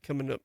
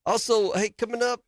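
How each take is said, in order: First: Said in the usual way. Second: Higher, eager promo read of "coming up"; first take. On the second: Shown as a demonstration. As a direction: pitch "coming up" high and lively. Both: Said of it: "let me redo that".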